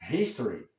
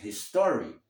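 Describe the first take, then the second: First: The stress is on the first syllable. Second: The stress is on the second syllable. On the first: The speaker calls it right. "Em inglês, dizemos history, é a primeira sílaba" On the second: The speaker calls it wrong. "A pronúncia que seria do português"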